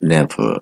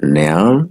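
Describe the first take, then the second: First: It is said in full with two syllables. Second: It is said as one contracted syllable.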